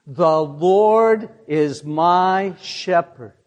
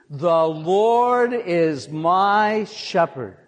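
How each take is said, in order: First: The Lord is my shepherd said slowly, word by word; call-and-response pace; slow congregational recitation. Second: "The Lord is my shepherd" drawn out slowly for the crowd; slow lead line for everyone to join; slow congregational recitation, second try. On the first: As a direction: lead the room through it slowly. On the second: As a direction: say it again slowly, inviting them in. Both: Shown as a demonstration. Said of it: "Say it with me".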